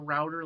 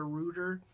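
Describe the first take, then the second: First: It is said with an American pronunciation. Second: It is said with a British pronunciation. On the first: "like we would call it here in America" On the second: "he calls it a router"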